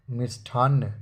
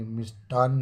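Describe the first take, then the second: First: मिष्ठान्न with aspirated ठ; wrong form. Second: मिष्टान्न with unaspirated ट; correct form. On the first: Teacher showing the error, मिष्ठान्न with aspirated ठ. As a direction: say मिष्ठान्न with a puffed th. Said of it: "मिष्ठान्न नहीं". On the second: Teacher giving the correction, मिष्टान्न with plain ट. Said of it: "मिष्टान्न होता है". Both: Shown as a demonstration.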